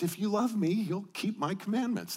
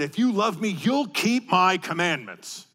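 First: It is said in a warm, loving tone. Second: It is said in a stern, demanding tone.

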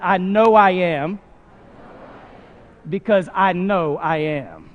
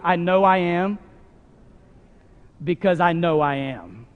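First: It is said with feeling and confidence. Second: It is said plainly, without extra feeling.

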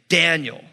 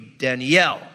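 First: The stress is on the first syllable. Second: The stress is on the last syllable. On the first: This is the usual English way. "the accent's on the first symbol. Like my name, you say Daniel" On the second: This is the Hebrew way. "In Hebrew, it'd be Daniel"

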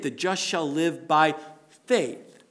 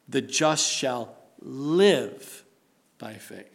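First: The stress is on the word faith. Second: The stress is on the word live.

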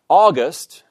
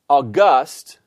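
First: The stress is on the first syllable. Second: The stress is on the second syllable. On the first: The speaker calls it right. "the accent properly falls on the penult" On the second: The speaker calls it wrong. "we do not say August"

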